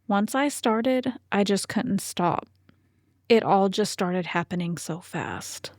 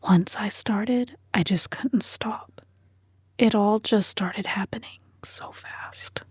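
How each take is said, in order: First: It is spoken in a normal voice. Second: It is spoken in a whisper.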